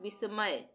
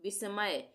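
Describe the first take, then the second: The two takes are said the same way.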